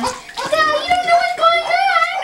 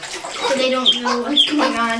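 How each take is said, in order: First: Very high, slow cooing; high baby talk. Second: Said in the usual way. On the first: Shown as a demonstration. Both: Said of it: "repeated in baby talk".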